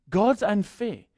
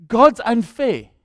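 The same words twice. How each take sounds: First: Said in the usual way. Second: God's unfair dragged out slow and loud; slow loud complaint; drawn-out whine. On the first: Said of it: "same quote repeated". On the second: Retold or imitated. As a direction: stretch God's unfair into a loud sulky moan. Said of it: "repeated, drawn out".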